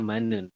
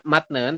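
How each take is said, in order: First: The first syllable ends in an n sound. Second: The first syllable ends in a t sound. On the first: The speaker calls it right. "tapi dibacanya manen" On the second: The speaker calls it wrong. "Tulisannya matnen"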